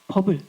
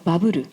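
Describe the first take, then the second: First: The word is said with two syllables, bubble. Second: The word is said with three syllables, baburu.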